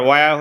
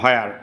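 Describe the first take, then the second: First: The word begins with a plain w sound. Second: The word begins with a breathy h-w sound. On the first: "ওয়ার হলো British উচ্চারণ" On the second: "হোয়ার হলো American উচ্চারণ"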